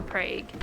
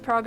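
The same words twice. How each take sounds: First: "Prague" with an ay, "Prayg"; long-a vowel in Prague. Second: "Prague" with an open ah, "Prahg"; ah vowel in Prague. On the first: Streamer offering chat the second option, "Prague" with an ay. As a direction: rhyme "Prague" with "vague". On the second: Streamer offering chat the first option, "Prague" with an ah. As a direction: rhyme "Prague" with "frog". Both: Shown as a demonstration. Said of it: "Is it pronounced Prague or Prague?".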